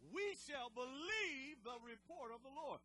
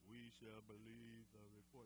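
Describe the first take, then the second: First: It is said with lots of energy. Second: It is said flatly, with little energy.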